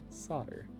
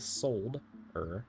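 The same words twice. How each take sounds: First: The word is said without an L sound. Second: The word is said with a clear L sound. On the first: "as an American, we don't pronounce the L" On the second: "but there is an L"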